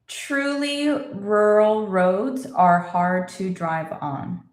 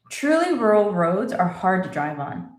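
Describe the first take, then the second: First: It is spoken slowly, slightly quicker than before. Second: It is spoken at normal conversational speed. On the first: "A little faster" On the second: "And normal speed"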